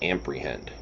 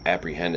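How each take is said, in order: First: The word is said with an M sound. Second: The word is said without an M sound. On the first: The speaker calls it wrong. "There's no M in there" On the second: The speaker calls it right. "They tried to use the word apprehend"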